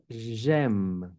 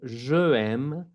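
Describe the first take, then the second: First: Je loses its vowel and joins aime. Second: Je is said as its own full syllable. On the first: The speaker calls it right. "vamos a decir j'aime" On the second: The speaker calls it wrong. "en lugar de decir je aime"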